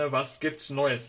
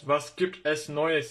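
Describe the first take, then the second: First: The es is reduced to an s sound. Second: The word es is said as a separate syllable. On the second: "Was gibt es neues yerine"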